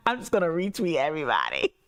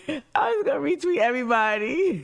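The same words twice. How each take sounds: First: Said in the usual way. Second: "I'm just gonna retweet everybody" in a high, fast, fake-crying whine; mock sobbing. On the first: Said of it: "repeats it crying". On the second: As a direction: pretend to sob it out, hammed-up despair. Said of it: "same line redone".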